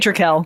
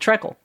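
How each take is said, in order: First: The first vowel sounds like the one in trick. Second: The first vowel sounds like the one in treck. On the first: This is the speaker's own way of saying it. "I say Trickle" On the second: This is how a colleague says it. "Josh is the one who says Treckle"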